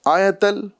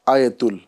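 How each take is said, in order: First: The vowel before the final l is a. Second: The vowel before the final l is u. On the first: The speaker calls it right. "आयतल बोलना है" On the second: The speaker calls it wrong. "आयतुल नहीं बोलना है"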